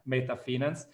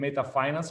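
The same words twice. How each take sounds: First: The name is pronounced the German way. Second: The name is pronounced the English way. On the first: The speaker calls it right. "it's a German company, so I guess that the right pronunciation is" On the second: The speaker calls it wrong. "I'm not saying Meta Finance"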